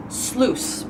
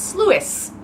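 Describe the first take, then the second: First: Sluice as one syllable, SLOOS; drawn-out sluice, silent i; correct pronunciation. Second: Sluice as two syllables, SLOO-iss; high sluice with the i sounded; misreading. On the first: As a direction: stretch sluice slowly to rhyme with loose. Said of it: "that's how you actually pronounce". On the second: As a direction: say sluice like Lewis with an s. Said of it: "in my head". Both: Shown as a demonstration.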